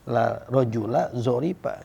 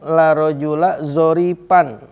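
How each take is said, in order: First: The last word ends on a bare a vowel. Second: The last word ends with an added n sound. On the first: The adjective is built into one unit with the noun. "al bina'u alal fathi, mabni di atas fathah" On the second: The adjective follows the noun's accusative position. "Jalan yang kedua boleh kita baca nasob"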